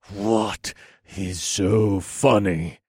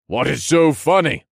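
First: Slow, tight, contained anger; seething, drawn-out question; through gritted teeth. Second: High, loud, irritated demand; exasperated outburst; annoyed. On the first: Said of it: "I asked through gritted teeth". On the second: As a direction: snap it out in raised annoyance. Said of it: "annoyed at his craziness". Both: A narrator's reading.

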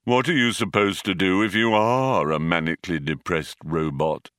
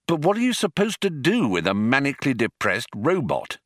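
First: Gloomy, monotone robot voice; Marvin. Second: Higher, lively swinging pitch; breezy complaint. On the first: A narrator's reading. Depressed robot turns the question on himself, funereal gloom. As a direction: intone it as if over a coffin. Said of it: "as if he was addressing a newly occupied coffin". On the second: Acted. Zaphod grumbles about the robot they must take along, breezy complaint. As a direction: toss it out as an exasperated question.

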